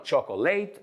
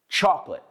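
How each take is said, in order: First: The word is said with three syllables. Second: The word is said with two syllables. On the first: The speaker calls it wrong. "No chocolate" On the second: The speaker calls it right. "Son dos sílabas en inglés. Quítate esa O de en medio"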